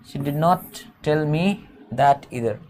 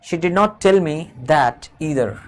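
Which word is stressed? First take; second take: me; that. First: The word "me" carries the main stress. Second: The word "that" carries the main stress. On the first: It was not told to me either. "अगर मी पर stress करेंगे तो मुझे भी नहीं बताया" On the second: That thing too was not told to me. "दैट पर stress देंगे तो वो बात भी मुझे नहीं बताई उसने।"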